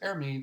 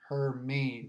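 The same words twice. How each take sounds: First: The name begins with no H sound. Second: The name begins with an audible H sound. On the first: The speaker calls it wrong. "I personally thought the H was silent" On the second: The speaker calls it right. "pronunciation of this name uh, from the National Hurricane Center is Hermine"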